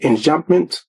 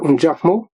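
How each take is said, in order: First: The word has an English-style pronunciation. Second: The word has a French-style pronunciation.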